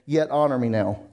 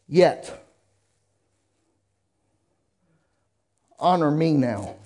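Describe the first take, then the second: First: It is said in a plain, undefiant tone. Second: It is said with a defiant, arrogant tone. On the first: The speaker calls it wrong. "y'all wouldn't have read it like that. Y'all would have said" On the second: The speaker calls it right. "I'm doing it with a rebellious, arrogant attitude"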